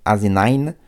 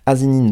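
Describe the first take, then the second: First: The name is pronounced the English way. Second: The name is read out as spelled, French-style. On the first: "soit je le fais un peu à l'anglaise, ça fait Asinine" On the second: "Comme c'est vraiment écrit, je vais le lire phonétiquement"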